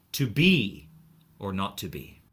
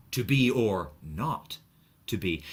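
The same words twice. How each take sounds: First: To be or not to be, first To be punched louder; stress on BE. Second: To be or NOT to be, slower, leaning on not; stress on NOT. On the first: Teacher showing where emphasis falls. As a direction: lean on the first To be, then drop for the rest. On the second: Teacher contrasting a second emphasis. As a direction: drag out To be or not, then let to be fall. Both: Shown as a demonstration. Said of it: "emphasis on different syllables".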